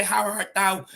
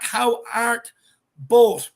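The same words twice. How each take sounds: First: Put-on lightly theatrical old English; a hint of stage Shakespeare; Shakespearean. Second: Said in the usual way. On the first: Shown as a demonstration. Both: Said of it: "just a bit of Shakespeare there".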